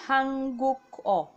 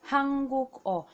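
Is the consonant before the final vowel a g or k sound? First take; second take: k; k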